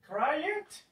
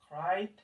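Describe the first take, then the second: First: The ending is an extra 'id' syllable. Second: The ending is a short sound, no extra syllable. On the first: The speaker calls it wrong. "Cry it, incorrect" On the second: The speaker calls it right. "Then we have specific pronunciations for this"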